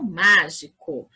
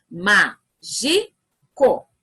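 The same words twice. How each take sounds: First: Said in the usual way. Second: "Mágico" very slowly, as má, gi, co, with pauses; syllable by syllable. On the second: Shown as a demonstration. Teacher showing children how to split words, "Mágico" broken into syllables. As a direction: separate each of the three syllables of "Mágico". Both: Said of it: "Vamos separar em sílabas?".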